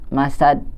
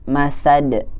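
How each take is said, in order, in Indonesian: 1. Huruf d di akhir ditahan tanpa dipantulkan. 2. Huruf d di akhir dilepas dengan pantulan. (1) "jangan ditahan" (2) "tapi masad gitu"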